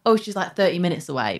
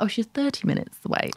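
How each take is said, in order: First: "thirty minutes away" run together quickly; fast casual speech. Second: "thirty minutes away" said higher and softly, more enunciated; careful speech. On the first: Showing how speed changes her accent, quick casual "thirty". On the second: Showing her other way of speaking, careful "thirty minutes away". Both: Shown as a demonstration. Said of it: "depends how fast I'm speaking".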